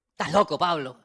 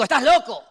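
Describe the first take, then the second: First: Said in the usual way. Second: Shouted high and loud, accusing. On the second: Retold or imitated. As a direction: yell it at him as Festus. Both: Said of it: "a gran voz dijo".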